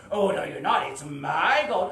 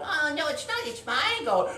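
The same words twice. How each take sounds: First: Loud dragon voice, dragging out MY; arguing dragon. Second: High, loud retort; bickering heroine. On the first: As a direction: claim the gold loudly and slowly. Dragon argues with the heroine. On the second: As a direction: argue back in a high voice. Heroine argues back at dragon. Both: Acted.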